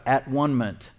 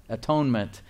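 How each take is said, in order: First: "at one-ment" split into at, one, ment, with "one" like the number; word broken up. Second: Said in the usual way. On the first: Shown as a demonstration. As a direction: sound out "at one-ment" as three separate parts. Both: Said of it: "if you break the word up".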